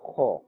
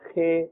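First: The letter is said with a full, heavy sound. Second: The letter is said with a thin, light sound. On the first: The speaker calls it right. "must be pronounced with a fuller sound" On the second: The speaker calls it wrong. "not Kha or Kha. This is incorrect"

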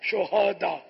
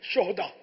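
First: The h is followed by a short a vowel. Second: The h has no vowel after it. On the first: It is the plural of martyr. The speaker calls it right. "ہا پر زبر پڑا کریں" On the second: It means a rascal or scoundrel. The speaker calls it wrong. "ہا کو ساکن جب پڑھیں گے ہا پر جزم لگے گا"

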